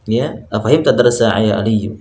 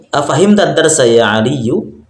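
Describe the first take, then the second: First: Said in the usual way. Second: Afahim tadarsa ya Aliyu said slowly, rising at the end; slow question reading. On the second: Shown as a demonstration. Teacher reading the example question slowly to students. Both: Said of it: "Lihat di bawah".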